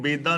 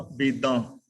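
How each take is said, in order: First: ਬੇਦਾਂ with the nasal dropped from the ending; ਬੇਦਾਂ ending in an oral aa; wrong reading ਬੇਦਾਂ. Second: ਬੇਦਾਂ with a nasalised final aan; ਬੇਦਾਂ, last vowel nasal; correct reading ਬੇਦਾਂ. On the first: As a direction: say ਬੇਦਾਂ as "bedaa". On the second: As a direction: let ਬੇਦਾਂ end through the nose. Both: Shown as a demonstration. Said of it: "ਇਹਨੂੰ ਬੇਦਾਂ ਨਹੀਂ ਪੜ੍ਹਨਾ".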